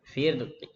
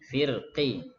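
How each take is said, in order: First: The final vowel is only partly voiced, very short. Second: The final vowel is fully voiced at normal length. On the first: "firqi itu sepertiga harokat ya" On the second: "Kalau sempurna firqi"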